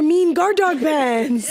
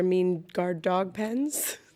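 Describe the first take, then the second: First: The delivery sounds upbeat and full of pep. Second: The delivery sounds gloomy and discouraging. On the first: The idea seems exciting. The speaker calls it right. "now I'm filled with pep" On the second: The idea seems bad. The speaker calls it wrong. "when you say it like that, it sounds like a bad idea"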